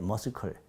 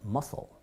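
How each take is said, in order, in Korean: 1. l 앞에 k 소리가 들려요. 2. l 앞에 k 소리가 들리지 않아요. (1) "머스클이라고 발음했어요" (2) "실제 발음기는 이렇게 되더라고요"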